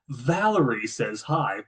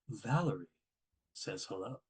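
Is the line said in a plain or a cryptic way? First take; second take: plain; cryptic. First: It is said in a plain, ordinary way. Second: It is said in a mysterious, cryptic way.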